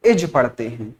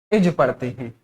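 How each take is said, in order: Both takes have the same delivery.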